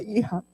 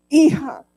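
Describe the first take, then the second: First: Said in the usual way. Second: A loud, sudden cry of the word Hija; loud emotional call. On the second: Retold or imitated. Father hearing his estranged daughter on the phone, loud emotional cry. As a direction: let Hija burst out loud.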